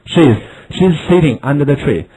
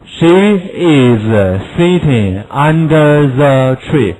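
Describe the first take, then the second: First: Said in the usual way. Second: Slow she is kept apart; full she is, not contracted; slow full form. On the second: Shown as a demonstration. Teacher gives the full form before she's. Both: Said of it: "she is缩写".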